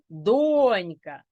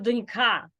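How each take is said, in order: First: The stress is on the first syllable. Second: The stress is on the second syllable. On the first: "якщо О, то це донька" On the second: "якщо А, то це донька"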